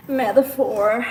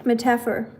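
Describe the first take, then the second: First: Metaphor as METH-uh-for, stress on the first syllable; loud, deliberate METH-uh-for for Metaphor; corrected English metaphor. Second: Metaphor as muh-TAFF-er; metaphor mispronounced. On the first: Shown as a demonstration. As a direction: spell out Metaphor by sound, METH-uh-FOR. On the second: Real, not acted. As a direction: stress the second syllable of Metaphor, muh-TAFF-er. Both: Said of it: "Did you say metaphor?".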